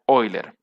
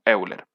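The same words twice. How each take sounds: First: The name is said in its original form. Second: The name is said in its familiar everyday form. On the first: This is how the name really should sound. The speaker calls it right. "en realidad sería Euler" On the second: This is how most people know the name. The speaker calls it wrong. "generalmente todos lo conocen así"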